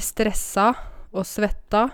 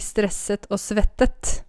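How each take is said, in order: First: Both verbs end in an open 'a' sound. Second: Both verbs end in an 'et' sound. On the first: This is the speaker's own natural, home-dialect form. "jeg sier stressa og svetta" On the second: This form feels too refined for the speaker. "Jeg kunne sagt vi stresset og svettet"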